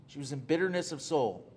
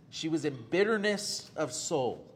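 First: Said in the usual way. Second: "bitterness" leaned on as the key word; read slowly. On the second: Shown as a demonstration. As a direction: stress on bitterness. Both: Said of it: "Notice the phrase in verse ten".

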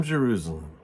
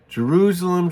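First: A lower, softer sorrowing repeat of the name; soft lament. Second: A higher, louder cry of the city's name; anguished cry. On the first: Jesus grieving over the city, a low, soft sorrowful repeat. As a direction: let the name fall away in sorrow. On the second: Jesus crying out over the city he loves, a high, loud anguished call. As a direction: call out to Jerusalem in grief. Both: Acted.

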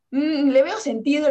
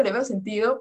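First: Mock convinced. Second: Said in the usual way. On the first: Quoting herself agreeing, slow and loud.

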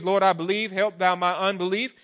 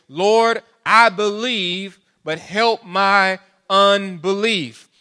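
First: Said in the usual way. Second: Loud, slow pleading cry to the Lord; tearful plea. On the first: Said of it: "the man cries out and said with tears". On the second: A narrator's reading. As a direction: cry it out slowly, begging for help. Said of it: "cried out and said with tears".

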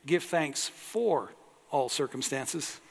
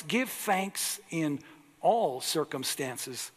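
First: "for" lifted and stressed in "Give thanks for all circumstances"; slow, pointing at "for" as the wrong word; mock misquote stressing "for". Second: Slow, stressing "in" in "Give thanks in all circumstances"; slow read with weight on "in". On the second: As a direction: lean on "in", unhurried. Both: Shown as a demonstration. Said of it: "Notice he doesn't say".

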